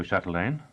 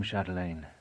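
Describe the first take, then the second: First: Chatelaine said with a rising tune, inviting her attention; an appealing Chatelaine going up; rising address. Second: Chatelaine said with a falling tune, offhand; a dry, closing Chatelaine going down; falling address. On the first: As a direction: lift Chatelaine upward to hold her ear. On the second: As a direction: drop the pitch through Chatelaine as a tag-on. Jonas addresses her, falling. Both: A narrator's reading.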